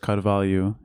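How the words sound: The name is pronounced with Portuguese sounds. "in Portuguese"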